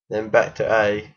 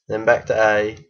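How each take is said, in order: Both takes have the same delivery.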